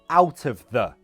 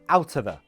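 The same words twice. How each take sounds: First: The phrase is said at a slower pace. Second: The phrase is said at a faster pace. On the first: "That's fine" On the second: "But quicker"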